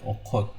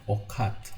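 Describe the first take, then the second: First: Okot with a round O in both syllables; okot, the written A read as O. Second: Okat with an open A in the second syllable; second vowel of okat left as A; wrong A sound. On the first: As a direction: round the second vowel of okot to O. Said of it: "I say okot because of this O, round O". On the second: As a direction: say okat with an unrounded A, as spelt. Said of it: "I do not read it okat". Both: Shown as a demonstration.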